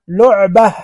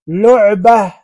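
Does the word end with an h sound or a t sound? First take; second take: h sound; h sound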